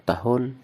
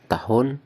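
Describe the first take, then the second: The two takes are said the same way.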